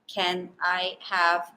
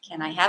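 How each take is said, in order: First: Each word is said separately, with breaks. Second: The words flow together, linked without breaks. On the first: The speaker calls it wrong. "when we say each word separately, we tend to sound a little choppy, a little robotic" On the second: The speaker calls it right.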